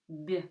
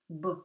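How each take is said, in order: First: The b sound is soft and light. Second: The b sound is hard and forceful. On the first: "In French, the same word would sound like bébé" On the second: "so it's hard"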